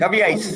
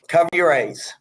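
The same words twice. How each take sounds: First: The phrase is said fast, with sounds running together. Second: The phrase is said at a normal, unhurried pace.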